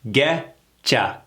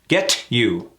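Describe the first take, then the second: First: The T and you merge into a CH sound. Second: The T is pronounced clearly before you. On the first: The speaker calls it right. "This is reduced to getcha. The C H sound" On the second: The speaker calls it wrong. "There's that pesky T again"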